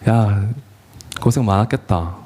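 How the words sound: It is said tearfully, with heartfelt feeling.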